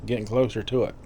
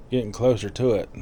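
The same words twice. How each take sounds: The two takes are said the same way.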